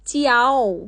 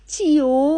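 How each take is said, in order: First: The word ends in an 'ah-oh' glide. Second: The word ends in a plain 'oh' sound. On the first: The speaker calls it right. "চিয়াও হবে" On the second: The speaker calls it wrong. "না না চিও না"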